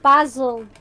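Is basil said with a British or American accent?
British. Basil is said with a British accent.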